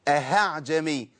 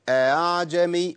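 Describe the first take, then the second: First: The second hamza is replaced with an h sound. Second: The second hamza is softened toward a long a. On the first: The speaker calls it wrong. "قول له لا ده خطأ، لأن كده أبدلت حرف" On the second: The speaker calls it right. "بين الهمزة وبين الألف اللي هو أصل الحركة"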